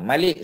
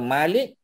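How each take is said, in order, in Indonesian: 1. Vokal pertama dibaca pendek. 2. Vokal pertama dibaca panjang. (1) "Malik saja, tak ada panjang" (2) "kita terjemah sebagai master"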